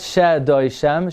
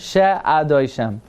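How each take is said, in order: First: The 'a' vowel before 'doishem' is swallowed. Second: The 'a' vowel before 'doishem' is pronounced. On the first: The speaker calls it wrong. "Not She Doishem" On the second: The speaker calls it right. "you pronounce the a"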